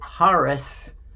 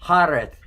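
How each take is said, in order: First: The name ends with an 's' sound. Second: The name ends with a 'th' sound. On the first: The speaker calls it wrong. "some people pronounce it Haris with a S" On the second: The speaker calls it right. "it's actually a T H sound in Arabic"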